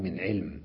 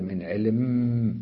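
First: Said in the usual way. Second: علم with a long hummed, doubled م; علم ending in a drawn-out mmm; doubled nasal final mim. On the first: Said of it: "فيقال: "من علم". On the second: Shown as a demonstration. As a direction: hold the م of علم as a slow nasal hum. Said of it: "وتشددها وتغنها".

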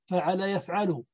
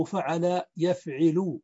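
First: فعل يفعل said fa'ala yaf'alu; a after the ayn in both فعل and يفعل; fatha on both. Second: فعل يفعل said fa'ala yaf'ilu; فعل with a-a-a, يفعل with i after the ayn; kasra on the present. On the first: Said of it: "يفعل بفتح العين". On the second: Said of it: "مكسور العين". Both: Shown as a demonstration.

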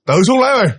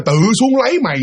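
First: Quick, high burst of words; very fast voice. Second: High quote, spelled out less quickly; imitated reply, slowed enough to follow; slower repeat. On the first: Retold or imitated. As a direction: imitate a rapid, curt reply from below. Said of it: "cái giọng nói mà nói nhanh lắm". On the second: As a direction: repeat the curt reply more clearly. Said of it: "À, là nói như vậy đó".

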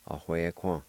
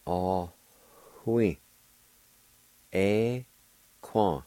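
First: "Ah, hui, quan" run together as one word; everyday pronunciation. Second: Each syllable of "Ah, hui. Eh, quan." separate, with long pauses; spelled-out pronunciation. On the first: Teacher showing how we say "Ah, hui, quan", all one word. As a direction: say "Ah, hui, quan" joined up, without breaks. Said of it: "Then I'll pronounce it the way we say it". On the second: Teacher sounding out "Ah, hui. Eh, quan." for learners, syllable by syllable. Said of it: "let me pronounce it out the way it's spelled". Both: Shown as a demonstration.

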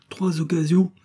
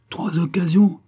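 First: Said in the usual way. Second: Higher and louder, hurling the words back; scornful shout. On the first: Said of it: "répondit froidement miss de Merville". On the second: Acted. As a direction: shout trois occasions back in disbelief. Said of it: "hurla ma compagne". (crié avec mépris, plus fort et plus aigu)

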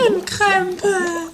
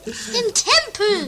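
First: Slow Krempel with K-R; slow teasing Krempel; mispronounced word. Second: Slow loud Tempel, each sound stretched; exasperated slow Tempel; emphatic correction. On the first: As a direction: drag out Krempel. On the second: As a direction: spell out Tempel loudly and slowly. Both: Pretend.

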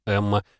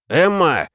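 First: Said in the usual way. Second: «Эмма!» выкрикнуто высоко и громко; позвать врага яростным криком; громкий крик. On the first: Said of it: "«Эмма!» — прокричал я". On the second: A narrator's reading. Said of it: "прокричал я". (выкрикнуть)

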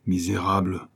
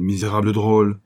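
First: A first choked-down insult; a hint of suppressed rage; muted outcry. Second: Louder indignant cry, punching drôle; old clerk's mild hammed-up fury; angry outburst. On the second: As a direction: let the insult burst out. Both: A narrator's reading. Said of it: "s'écria le doux père Tantenne".

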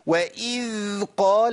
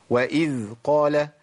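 First: وإذ قال with the ذ of وإذ stretched far too long, slow; overlong dhal. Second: وإذ قال with the ذ of وإذ flowing briefly then fading on its own; correct dhal. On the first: Teacher shows students the error: ذ in وإذ held way too long. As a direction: drag out the ذ in وإذ excessively. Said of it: "ما ينفعش كده، كتير قوي". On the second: Teacher models the correct reading: ذ in وإذ flowing, measured. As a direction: let the ذ in وإذ run gently, then stop by itself. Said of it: "مشي الذال وخلي الصوت ينقطع لوحده". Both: Shown as a demonstration.

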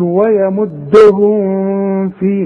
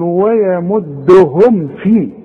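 First: ويمدهم في with a nasal hum on the mim; wrong tajweed with ghunna. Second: ويمدهم في with the mim closed cleanly; tajweed demo without ghunna. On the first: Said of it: "اوعى تقول". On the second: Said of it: "ما عنديش غنة". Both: Shown as a demonstration.

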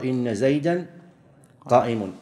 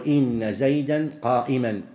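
First: "قائم" ending in -un, "qā'imun"; standard nominative predicate. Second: "قائما" ending in -an, "qā'iman"; both parts accusative. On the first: Teacher giving the common usage, "قائم" said "qā'imun". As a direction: end "قائم" clearly in -un after "زيدا". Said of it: "ولغة العرب المشهورة". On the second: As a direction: slowly end both "زيدا" and "قائما" in -an. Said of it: "ينصب الجزئين". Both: Shown as a demonstration.

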